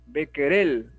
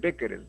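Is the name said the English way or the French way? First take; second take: French; English. First: It is said with a French-style pronunciation. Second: It is said with an English-style pronunciation. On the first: The speaker calls it right. "es así como lo llamaban en Francia" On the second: The speaker calls it wrong. "Y acá sería de repente Becquerel, no"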